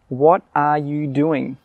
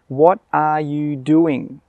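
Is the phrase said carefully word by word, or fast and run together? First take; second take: carefully; carefully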